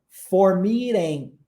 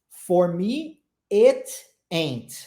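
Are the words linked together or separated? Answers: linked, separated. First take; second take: linked; separated. First: The words run together with linked sounds. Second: Each word is said separately with pauses. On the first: The speaker calls it right. "A gente vai juntar o T no A" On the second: The speaker calls it wrong. "Só que ninguém pronuncia assim, né? A gente não pronuncia as frases pausadamente"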